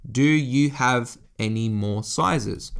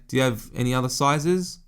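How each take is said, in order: First: Each word spelled out slowly to a clerk; slow, simple, clear. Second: Said in the usual way. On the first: Retold or imitated. Asking a Japanese clerk for sizes, slow and deliberate. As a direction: tourist slowing right down so the clerk understands. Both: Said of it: "keep your words very simple, very clear and precise".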